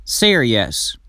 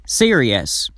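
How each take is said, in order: Both takes have the same delivery.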